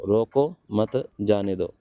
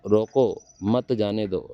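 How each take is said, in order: First: Slow, रोको मत grouped, a break, then जाने दो; pause after मत. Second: Slow, with a break after रोको, then मत जाने दो run together; pause after रोको. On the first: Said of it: "यहाँ लगाते हैं रोको मत". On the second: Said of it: "यहाँ लगाते हैं तो रोको". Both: Shown as a demonstration.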